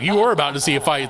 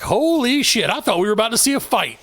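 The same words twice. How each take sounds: First: "were" punched in a retold retort; stress on WERE. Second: High-pitched awed onlooker, imitated; mock astonished bystander reaction; retold amazement. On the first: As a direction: confirm it firmly, leaning on "were". His retort echoing their words. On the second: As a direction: draw out the shock, pitched well up. Other coaches' amazed reaction, retold.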